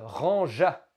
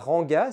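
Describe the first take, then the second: First: The middle consonant is a soft zh sound. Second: The middle consonant is a hard g sound. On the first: The speaker calls it right. "Nous voulons faire le son je" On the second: The speaker calls it wrong. "si je mets un G simple, cela fera ranga, ce qui ne marche pas"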